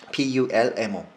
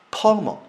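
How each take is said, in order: First: "pulmo" with the L sounded before the M; first pronunciation variant. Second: "pulmo" as "pah-mo", L dropped; second pronunciation variant. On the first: Teacher offering the first of two variants, L sounded. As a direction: say "pulmo" slowly, keeping its L. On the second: Teacher offering the other accepted variant, L dropped. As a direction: open up the first vowel of "pulmo" and drop the L. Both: Shown as a demonstration. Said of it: "pulmo라고도 하고 pulmo라고도 그럽니다".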